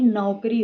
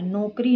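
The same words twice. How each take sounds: First: Said in the usual way. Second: नौकरी said as नोकरी; mistaken o vowel. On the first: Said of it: "होता है". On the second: Shown as a demonstration. Teacher rejecting an error, mistaken o vowel. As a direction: use plain ो in नौकरी. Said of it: "नहीं".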